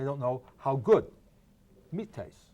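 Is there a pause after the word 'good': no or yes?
yes. There is a pause after good. They have never eaten meat at all. "voice inflection again"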